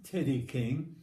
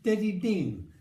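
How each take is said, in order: First: The name starts with T and K sounds. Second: The name starts with D sounds in both words. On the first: The name as it really is. The speaker calls it right. "the real T- Teddy King" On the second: A small child's attempt at the name. The speaker calls it wrong. "he couldn't pronounce it"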